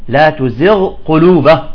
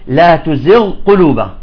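The two takes are said the same way.

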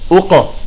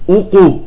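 First: The qalqala echo is neutral with lips quickly relaxed. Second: The qalqala echo is rounded toward 'u'. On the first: The speaker calls it right. "يجب أن تعود الشفتان مباشرة" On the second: The speaker calls it wrong. "طلعت مضمومة، وهذا خطأ"

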